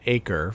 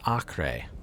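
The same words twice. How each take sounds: First: The name is said the usual English way. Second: The name is said a non-English way. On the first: The speaker calls it wrong. "in English, uh, you would pronounce that Acre for sure" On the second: The speaker calls it right. "I think it's properly pronounced Acre"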